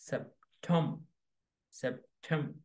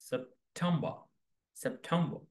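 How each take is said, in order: No difference in how they are said.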